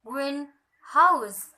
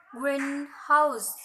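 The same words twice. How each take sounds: First: Greenhouse as two words, green and house both stressed; equal stress. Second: Greenhouse with main stress on green, less on house; weight the first syllable of greenhouse, ease off the second; compound-word stress. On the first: Teacher showing modifier plus noun, equal stress in greenhouse. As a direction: give green and house each their own full stress. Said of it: "and primary, primary distinguish". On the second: Teacher showing a compound word, primary stress on green in greenhouse. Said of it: "primary, secondary". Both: Shown as a demonstration.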